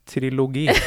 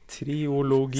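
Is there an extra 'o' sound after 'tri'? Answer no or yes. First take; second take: no; yes. First: No extra o sound follows tri. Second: An extra o sound follows tri. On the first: The speaker calls it right. "det er uten O-en" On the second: The speaker calls it wrong. "du bare uttalte den O-en som ikke er der"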